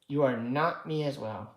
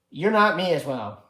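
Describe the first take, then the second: First: ARE stressed, calmer restated. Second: NOT punched loud and falling; stress on NOT. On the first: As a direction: lean on the word are. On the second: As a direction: hit the word not hard. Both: Shown as a demonstration.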